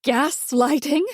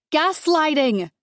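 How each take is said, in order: First: Slow, rising, mock-baffled echo; mother-in-law feigning she's never heard the word; puzzled repeat. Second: Slow, falling, punched Gaslighting; wife hammering the word back at her mother-in-law; emphatic. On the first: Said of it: "in a tone that suggests she's never heard of the word". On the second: Acted. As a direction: drive the word Gaslighting home.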